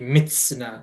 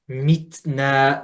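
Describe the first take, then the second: First: The t is spat with a kissy hiss. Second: The t is clean and balanced. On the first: The speaker calls it wrong. "You made it really kissy" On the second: The speaker calls it right. "find the balance of making that sound"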